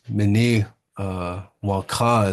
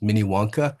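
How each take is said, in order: First: The name is said with its native pronunciation. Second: The name is said with an anglicized pronunciation. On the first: "is the proper way to say it" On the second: "the way most people know it"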